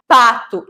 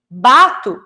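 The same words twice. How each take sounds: First: "pato" with a crisp unvoiced p; voiceless P. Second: "bato" with a voiced b at the start. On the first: Teacher contrasting a minimal pair, clear P. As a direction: set off "pato" by its voiceless first sound. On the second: Teacher contrasting a minimal pair, voiced B. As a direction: set off "bato" by its voiced first sound. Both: Shown as a demonstration. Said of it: "diferenciar pato e bato".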